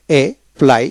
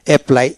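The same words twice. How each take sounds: First: "apply" drawn out, split before the "pl"; double-p pronunciation. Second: Said in the usual way. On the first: Shown as a demonstration. Teacher showing learners the double p, "apply" slowly split. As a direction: say "apply" in two parts, pausing on the double p. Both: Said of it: "এখানে উচ্চারণটা হবে double পিতে".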